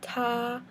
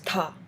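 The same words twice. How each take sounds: First: It is said with the first tone. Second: It is said with the fourth tone. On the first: "The first is like neutral" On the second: "And fourth is"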